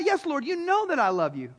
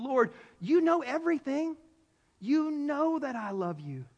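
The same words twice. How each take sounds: First: Quick, ready reassurance; insistent. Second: Grieved. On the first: Peter answering Jesus a second time, insistent. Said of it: "he doubled down on the question". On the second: Grieved Peter answering Jesus a third time, hurt. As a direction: let the hurt draw the words out. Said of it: "Peter was grieved". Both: Acted.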